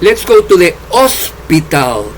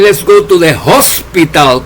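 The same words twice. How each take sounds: First: The h in hospital is silent. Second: The h in hospital is strongly pronounced. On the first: This is the English of England. "Los ingleses en Inglaterra dicen" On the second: This is the English of the United States. "como dicen en Estados Unidos los americanos"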